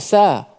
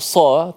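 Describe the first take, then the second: First: The letter is pronounced light and thin. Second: The letter is pronounced heavy and thick. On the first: The speaker calls it wrong. "tak boleh sebut sa" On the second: The speaker calls it right. "kan sebut sa"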